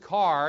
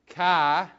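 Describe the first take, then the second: First: It is said without a Boston accent. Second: It is said in a Boston accent. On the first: The speaker does not come from Boston. "he's not from Boston" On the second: The speaker comes from Boston. "where's he from? ... Boston"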